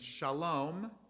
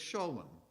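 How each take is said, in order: First: It is said the non-Ashkenazic way. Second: It is said the Ashkenazic Eastern European way.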